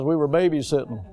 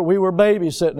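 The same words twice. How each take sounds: First: Weary eye-roll. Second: Said in the usual way. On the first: Retold or imitated. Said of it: "And he rolled his eyes". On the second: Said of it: "my grandsons were over".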